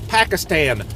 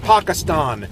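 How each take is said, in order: First: It is said with an English pronunciation. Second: It is said with a foreign pronunciation. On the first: The speaker calls it right. "In English, we say Pakistan" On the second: The speaker calls it wrong. "not Pakistan"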